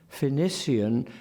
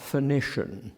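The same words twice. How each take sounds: First: PHOENICIAN said slowly as "fe-NISS-ee-an"; Eliot's pronunciation. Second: PHOENICIAN said as "fe-NISH-un"; rejected pronunciation. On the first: Lecturer repeats the preferred form, Phoenician as fe-niss-ee-an. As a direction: keep the S and ee in Phoenician. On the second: Lecturer gives the rejected form, Phoenician as fe-nish-un. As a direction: slur Phoenician to a sh, three syllables. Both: Shown as a demonstration. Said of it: "not Phoenician".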